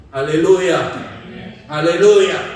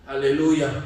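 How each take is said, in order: First: Louder, lifted hallelujah, falling at the end. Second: Said in the usual way. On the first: Acted. Preacher rallying congregation, ringing hallelujah. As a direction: shout Haleluya to rally the room.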